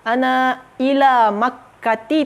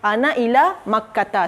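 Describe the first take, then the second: First: The last word ends in an 'i' vowel. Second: The last word ends in an 'a' vowel. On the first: The speaker calls it wrong. "tak boleh" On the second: The speaker calls it right. "Tapi boleh dia"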